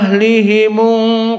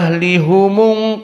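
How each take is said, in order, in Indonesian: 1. Vokal setelah h adalah 'i'. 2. Vokal setelah h adalah 'u'. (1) "ha kasrah" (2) "ha dhammah"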